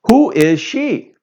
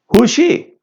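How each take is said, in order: First: Who and is are said as two separate words. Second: Who and is are squeezed into one syllable. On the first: "if we say, who is she?" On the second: "We can make a contraction, a short form"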